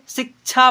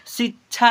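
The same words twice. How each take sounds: First: शिक्षा with a clear k, "sik-chha"; k sound pronounced. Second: शिक्षा as "si-chha", without k; k sound dropped. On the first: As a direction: put a k before the chha of शिक्षा. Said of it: "क के उच्चारण भी होता है". (शिक्षा को क के साथ "सिक्छा") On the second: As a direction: skip the k in शिक्षा, saying "sichha". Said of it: "शिक्षा नहीं करके". (शिक्षा में क छोड़कर "सिच्छा") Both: Shown as a demonstration.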